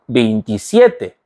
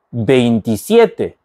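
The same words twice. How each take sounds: The two takes are said the same way.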